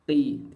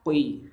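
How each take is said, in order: First: "ki" light with no u glide; plain ki, right. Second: "kui" with a rounded u glide before i; kui, wrong. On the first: Teacher shows the correct kasrah qaf. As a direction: keep "ki" short and thin. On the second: Teacher shows the wrong rounded reading. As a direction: slide into "kui" as the mistake. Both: Shown as a demonstration. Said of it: "tidak dibaca".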